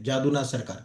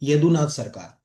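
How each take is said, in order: First: The name begins with a J sound. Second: The name begins with a Y sound. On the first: This is the usual everyday reading of the name. "Normally पढ़ोगे तो जादू" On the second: This is the Bengali-style reading of the name. "कई लोग क्या बोलते हैं"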